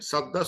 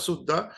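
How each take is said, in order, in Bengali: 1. প্রথম স্বরধ্বনিটি 'a' ধ্বনি। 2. প্রথম স্বরধ্বনিটি 'u' ধ্বনি। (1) "আর এই সাদ্দান শব্দটা" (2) "হি ইজ প্রোনাউন্সিং সুদ্দান, মিনিং সেম"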